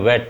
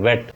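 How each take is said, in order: Both takes have the same delivery.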